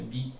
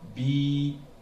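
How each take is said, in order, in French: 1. La voyelle est courte. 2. La voyelle est allongée. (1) "avec la kasra, ça fait bi. C'est une courte voyelle" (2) "c'est une plus longue voyelle"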